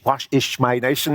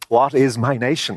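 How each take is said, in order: First: The word 'is' ends in a sh sound. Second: The word 'is' ends in a plain s sound.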